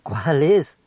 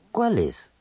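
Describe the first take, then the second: First: "¿Cuál es?" rising on "es"; question. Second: "¿Cuál es?" falling with stress on "cuál"; exclamation. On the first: Radio teacher demonstrating a question, rising tune. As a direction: ask which one. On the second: Radio teacher demonstrating admiración, exclaiming. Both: Shown as a demonstration. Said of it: "en preguntas o admiración".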